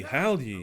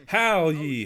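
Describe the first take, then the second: First: Said in the usual way. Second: Louder, drawn-out "Howl ye" as a cry. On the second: Shown as a demonstration. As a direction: call out "Howl ye" like a wail. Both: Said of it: "don't yell, howl".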